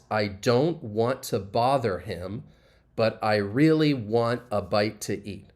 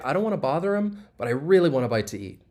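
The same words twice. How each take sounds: First: Each word is pronounced separately and fully. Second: The words run together with reduced forms. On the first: "if I were to pronounce the individual words" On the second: "if I were to say this, I would just say"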